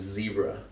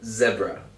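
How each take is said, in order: First: It is said with an American English accent. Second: It is said with a British English accent.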